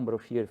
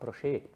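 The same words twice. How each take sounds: First: The final vowel is short, not drawn out. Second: The final vowel is drawn out and lengthened. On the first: "os alemães ali não falam Brochier" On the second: "Dá uma espichada naquele E final"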